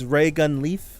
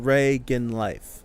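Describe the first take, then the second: First: The second name rhymes with 'beef'. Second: The second name rhymes with 'knife'. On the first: The speaker calls it wrong. "I say leaf like Reagan Leaf" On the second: The speaker calls it right. "I think life is correct"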